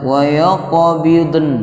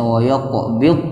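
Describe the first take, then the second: First: The final n sound is overdone and drawn out. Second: The final n sound is left out. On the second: "kurang, nunnya tidak terbawa"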